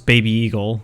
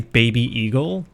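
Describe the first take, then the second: First: The words run together, sounding like beagle. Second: The two words are kept clearly separate.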